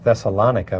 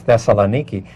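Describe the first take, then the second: First: The name ends with a 'ka' sound. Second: The name ends with a 'kee' sound. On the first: This is the common English form. The speaker calls it wrong. "a lot of us would, would say that this is Thessalonica" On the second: This is the local Greek form. The speaker calls it right. "the correct pronunciation is Thessaloniki"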